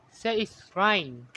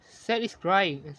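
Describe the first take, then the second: No difference in how they are said.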